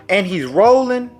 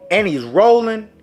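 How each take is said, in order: Both takes have the same delivery.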